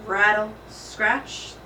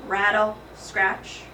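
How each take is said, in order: Both takes have the same delivery.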